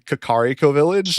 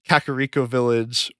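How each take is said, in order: First: Kakariko is pronounced the Japanese way. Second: Kakariko is pronounced the usual English way. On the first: This is how it would be said in the original language. "if it were Japanese, it'd be, like" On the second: This is how most people say it. "everyone calls, like, the village Kakariko Village"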